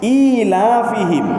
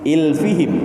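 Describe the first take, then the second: First: A long vowel is heard between the l and f. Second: No vowel is heard between the l and f. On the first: "Ada yang membaca ilafihim" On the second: "ada yang membaca ilfihim"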